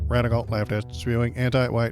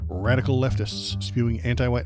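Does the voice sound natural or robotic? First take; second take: robotic; natural. First: It is read in a flat, robotic voice. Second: It is read in a natural speaking voice.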